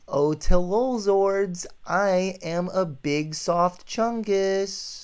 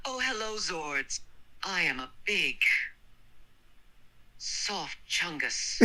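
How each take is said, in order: First: Slow, drawn-out silly voice, pitched up; hammed-up, sing-song silliness; goofy demo line. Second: Mildly goofy reading, high at the start; understated silly voice; goofy, high-pitched. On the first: Shown as a demonstration. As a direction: stretch it out high and goofy. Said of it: "do this line. Say". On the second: A narrator's reading. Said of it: "read with a goofy, high-pitched voice".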